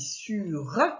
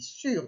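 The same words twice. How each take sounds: First: It ends with an extra vowel sound, two syllables. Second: It ends on the consonant, one syllable. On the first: The speaker calls it wrong. "J'ai pas dit sur" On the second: The speaker calls it right. "J'ai dit sur"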